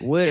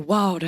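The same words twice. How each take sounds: First: It is said in a Pittsburgh accent. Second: It is said in a Georgia accent.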